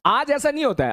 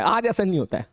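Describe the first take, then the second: First: ऐसा पर ज़ोर, ऊँची आवाज़ में; "ऐसा" को ऊपर उठाकर ज़ोर दो; stress on ऐसा. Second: "आज" पर हल्का ज़ोर, सामान्य सुर में; "आज" को हल्का सा दबाकर कहो; stress on आज. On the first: ("ऐसा" शब्द पर ज़ोर देकर बोलो) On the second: ("आज" पर ज़ोर देकर, सामान्य आवाज़ में) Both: Shown as a demonstration.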